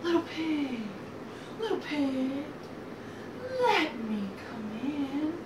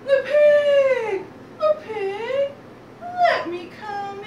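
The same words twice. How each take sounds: First: Drawn-out wolf call at everyday pitch; restrained wolf call. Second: High, loud, drawn-out wolf call. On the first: Wolf at the brick house door, restrained slow call. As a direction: call it slowly, holding back the volume. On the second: Wolf demanding entry at the pigs' door, calling out high. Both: Acted.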